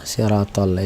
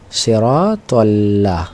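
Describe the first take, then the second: First: Said in the usual way. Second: সিরাতাল্লাহ drawn out syllable by syllable; slow recitation. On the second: Shown as a demonstration. Teacher points out the lam in a verse, reciting slowly. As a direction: stretch the long vowels of সিরাতাল্লাহ.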